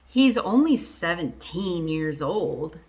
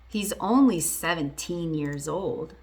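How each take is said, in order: The two takes are said the same way.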